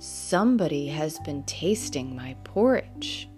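It is said in a great, huge bear voice.

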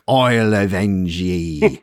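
It is said in a Scottish accent.

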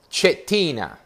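The name is said with Italian pronunciation. "I'm going to pronounce this Roger in Italiano"

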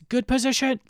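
It is said in a cautioning, reminding tone. The player is being told to get into a good position. "it's good position. Like a reminder"

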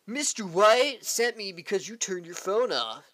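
It is spoken in a laid-back surfer-dude voice. "California surfer dude"

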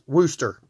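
It is said in a Massachusetts way.

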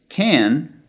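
The vowel is a long, spread American sound. "expands the vowel sound"

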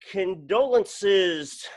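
It is said in an upbeat, lively voice.

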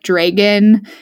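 It is said with a Pacific Northwest accent.

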